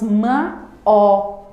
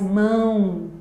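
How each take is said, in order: First: The vowels are split into two separate syllables. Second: The vowels glide together as one syllable. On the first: The speaker calls it wrong. "Nós não falamos ma, ó" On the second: The speaker calls it right. "mas mão"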